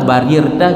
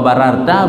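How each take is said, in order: First: The vowel after the first r is i. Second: The vowel after the first r is a. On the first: "barirta juga boleh" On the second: "nya menyebab wa bararta"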